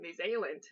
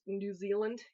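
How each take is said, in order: First: New Zealand said with a quick New Zealand accent, "nee zay-land"; a tentative New Zealand accent on New Zealand. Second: Said in the usual way. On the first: Shown as a demonstration. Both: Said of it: "about to try to do a New Zealand accent".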